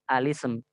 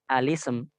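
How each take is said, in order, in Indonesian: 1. Dimulai dengan vokal sebelum l. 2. Dimulai dengan vokal sebelum l.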